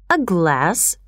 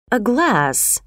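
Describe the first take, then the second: First: "A glass?" clearly articulated with a questioning rise; clearer repeat. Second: A rough-edged, falling murmur of surprise; low, rough voice. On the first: Shocked customer repeats himself to the clerk, more clearly, questioning. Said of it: "paused and repeated it more clearly". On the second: Shocked customer echoes the clerk's offer, in a low, rough voice. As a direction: say "A glass" roughly, as if caught off guard. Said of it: "in a low, rough voice". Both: A narrator's reading.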